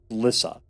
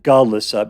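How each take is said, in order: First: The G and L form one consonant cluster. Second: An extra vowel is inserted between G and L. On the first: The speaker calls it right. "but it's just Glissa" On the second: The speaker calls it wrong. "I always want to pronounce it Galissa"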